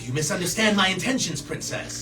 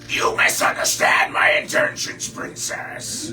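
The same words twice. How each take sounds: First: It is said in a normal human voice. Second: It is said in a put-on lizard voice. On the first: "the human version" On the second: "the lizard voice"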